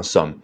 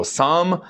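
First: Some tossed off lightly, barely stressed; light unstressed some. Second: Some dragged out high and heavy; heavy stress on some. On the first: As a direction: say some lightly, almost swallowed. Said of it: "非常轻描淡写". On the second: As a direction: lean hard on some, slow and high. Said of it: "在这儿不要读得很重啊". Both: Shown as a demonstration.

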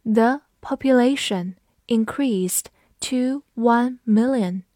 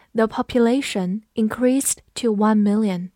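First: The population increased to one million, slow, word by word; teacher's slow model reading, pausing between chunks; slow read-along. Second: Said in the usual way. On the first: Shown as a demonstration. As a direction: read it out slowly for learners to follow. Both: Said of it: "我们慢读一遍".

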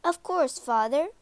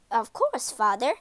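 First: Quick, bright eager reply. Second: Grudging, hesitant reply; reluctant. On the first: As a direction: answer keenly, higher. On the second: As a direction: say it unwillingly. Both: A narrator's reading. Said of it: "didn't sound so happy".

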